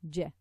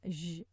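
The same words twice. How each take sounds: First: The j sound is strong and firm. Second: The j sound is light and weak. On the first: The speaker calls it right. "the jim is is a strong letter" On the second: The speaker calls it wrong. "they pronounce it uh, a bit lighter"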